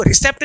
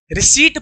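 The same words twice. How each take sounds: First: रिसेप्ट with the P sounded; short "e" and a sounded P in रिसेप्ट; wrong pronunciation. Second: रिसीट with a silent P; long-ee रिसीट, no P sound; correct pronunciation. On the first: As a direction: say रिसेप्ट with an audible "pt" ending. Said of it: "इसे रिसेप्ट नहीं पढ़ते हैं". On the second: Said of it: "रिसीट पढ़ते हैं". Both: Shown as a demonstration.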